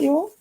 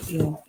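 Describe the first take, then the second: First: "y'all" tacked on high, with a rising lilt; self-mocked y'all. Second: Said in the usual way. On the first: Real, not acted. Outsider trying out a Southern word, self-mocked y'all. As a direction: lift "y'all" sharply upward at the end. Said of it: "I just cannot say it correctly". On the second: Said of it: "don't know why you started saying that".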